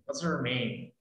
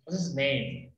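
First: Her said with a small fall, set apart from his; stress on her. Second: His said with a little push against her; stress on his. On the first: Teacher to class, comparing his and her, a light push on her. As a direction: lean on the word her, to contrast it with his. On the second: Teacher to class, comparing his and her, a light push on his. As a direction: lean on the word his, to set it apart from her. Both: Shown as a demonstration. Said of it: "aquí está su nombre o el nombre de ella".

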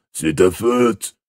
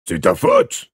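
First: Slow, drawn-out accusing character voice; Boyle grumbling blame. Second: Loud, high yelped accusation; accusing Boyle. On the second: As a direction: burst out with the blame, pitch leaping up. Boyle's accusation, first take. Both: Acted.

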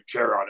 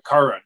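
First: Charon with a CH as in "chair"; soft CH pronunciation. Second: Charon with a hard K, "KAR-on"; hard K pronunciation. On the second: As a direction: say Charon starting like "car". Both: Shown as a demonstration. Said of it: "however you pronounce it".

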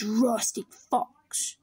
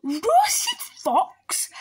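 First: Said in the usual way. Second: High, loud shocked question; startled fox, pitch jumping up; alarmed echo. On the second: Acted. Fox hears he is the favourite food, alarmed.

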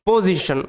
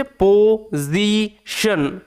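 First: Said in the usual way. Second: "position" as po... zi... shon, with a z sound; broken into syllables. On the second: Shown as a demonstration. Teacher demonstrating how to pronounce "position", po-zi-shon in separate pieces. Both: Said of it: "এটা উচ্চারণ হচ্ছে".

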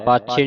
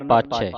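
First: ਪਾਛੇ ending in a close "chhay"; close final vowel. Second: ਪਾਛੈ ending in an open "chhai"; open final vowel. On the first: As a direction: say ਪਾਛੇ as "paachhay", single-lavan sound. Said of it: "ਪਾਛੇ ਨਹੀਂ ਪੜਨਾ". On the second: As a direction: say ਪਾਛੈ as "paachhai", dulavan sound. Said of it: "ਦਲਾਵਾਂ ਦੀ ਆਵਾਜ਼ ਉਚਾਰਨ ਹੋਵੇ". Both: Shown as a demonstration.

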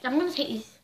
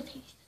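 First: Said in the usual way. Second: Breathy sneaky whisper. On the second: Shown as a demonstration. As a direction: whisper it like a secret. Same words whispered.

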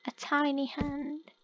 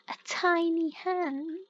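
First: Said in the usual way. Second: "tiny" drawn out slowly with a rise; "A tiny hand" slowed, "tiny" lifted; slow stress on tiny. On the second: Real, not acted. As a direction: linger on "tiny" as if it's absurd. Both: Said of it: "scared of a tiny hand".

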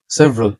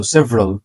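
First: সেভারাল in three syllables, "se-va-ral"; mistaken pronunciation. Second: সেভারাল in two syllables, "SEV-ral"; correct pronunciation. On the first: Teacher showing learners what to avoid, সেভারাল as se-va-ral. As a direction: sound the middle vowel of সেভারাল. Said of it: "না কিন্তু". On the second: Teacher modelling for learners, সেভারাল as sev-ral. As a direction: drop the middle vowel of সেভারাল. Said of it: "সেভারাল না কিন্তু". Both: Shown as a demonstration.

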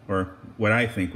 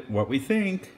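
First: I stressed, low and firm. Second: Said in the usual way. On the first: Shown as a demonstration. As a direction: lean on the word I with a falling tune. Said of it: "rather, 'cause you guys can't have any". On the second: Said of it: "or what I think, rather".

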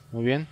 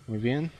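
Both takes have the same delivery.

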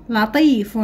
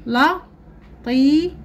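First: Said in the usual way. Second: لطيف drawn out high and slow; slow, raised. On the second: Shown as a demonstration. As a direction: stretch لطيف for pupils. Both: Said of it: "لدينا الكلمات نقرأها".

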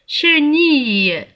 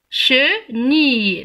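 First: Said in the usual way. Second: "Chenille" slowly broken into "che", pause, "nille"; split into syllables. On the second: Shown as a demonstration. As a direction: separate both syllables of "Chenille", holding the I. (« Chenille » découpé lentement, syllabe par syllabe) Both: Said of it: "J'entends I".

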